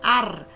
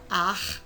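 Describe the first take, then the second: First: The r is made with the tongue tip vibrating. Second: The r is a rasping sound in the throat. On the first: "a língua vai tremer lá na, na, em cima" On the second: "vai raspar a garganta"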